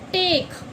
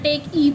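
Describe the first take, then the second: First: The word ends on the 'k' sound. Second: An extra 'e' vowel is sounded at the end. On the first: The speaker calls it right. "हम क्या पढ़ेंगे इसे" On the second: The speaker calls it wrong. "ना टेक ई पढ़ सकते हैं"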